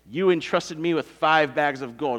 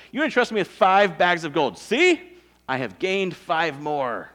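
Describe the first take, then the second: First: Said in the usual way. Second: Showing off. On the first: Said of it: "It's like the, the master knows this". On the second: Acted. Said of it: "He's just kinda showing off".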